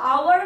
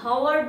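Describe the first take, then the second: First: The word begins with a vowel sound. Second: The word begins with an h sound. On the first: The speaker calls it right. "আওয়ারটা আমরা" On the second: The speaker calls it wrong. "হাওয়ার বলি না"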